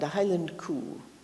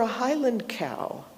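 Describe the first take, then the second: First: Cow is said with a Scottish 'coo' vowel. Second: Cow is said with a standard non-Scottish vowel.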